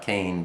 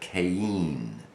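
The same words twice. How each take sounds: First: The name is said the usual English way. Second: The name is said the Hebrew way, Qayin. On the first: The speaker calls it wrong. "not Cain" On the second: The speaker calls it right. "but Cain. Q A Y I N"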